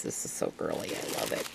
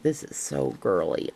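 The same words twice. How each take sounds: First: Delighted whisper. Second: Said in the usual way. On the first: Real, not acted. Gushing over a gift to viewers, softly whispered.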